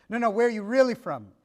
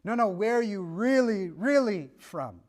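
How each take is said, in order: First: Quick retold question punching "really"; imitated questioner stressing "really"; pressing question. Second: Each "really" stretched out and leaned on; imitated questioner dragging out each "really"; insistent questioning. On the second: Questioner presses harder, repeating really.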